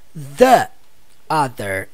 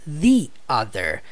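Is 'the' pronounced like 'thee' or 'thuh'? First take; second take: thuh; thee. First: The word 'the' has a short 'thuh' vowel. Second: The word 'the' has a long 'thee' vowel. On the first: The speaker calls it wrong. "nós não pronunciamos the other" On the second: The speaker calls it right. "nós pronunciamos the other. Por quê? Porque a próxima palavra ela começa com vogal"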